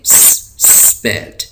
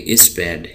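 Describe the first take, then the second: First: The word starts directly with the s sound. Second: An extra vowel is added before the s. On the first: The speaker calls it right. "इसको हम पढ़ेंगे" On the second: The speaker calls it wrong. "हम इसको नहीं पढ़ेंगे"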